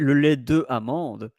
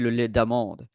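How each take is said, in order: First: The vowel of 'de' is pronounced separately. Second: The vowel of 'de' is dropped and linked. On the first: The speaker calls it wrong. "you might say le lait de amande, and I will understand you" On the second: The speaker calls it right. "it's correct to say le lait d'amande"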